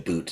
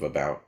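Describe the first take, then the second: First: It is said in a Canadian accent. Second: It is said in an American accent.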